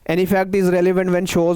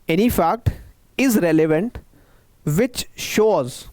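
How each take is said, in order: First: It is read quickly without stopping. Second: It is read slowly and deliberately. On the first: The speaker calls it wrong. "ऐसे नहीं पढ़ना" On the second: The speaker calls it right. "Slow slow read करना है आपको, आपको पढ़ना है ऐसे"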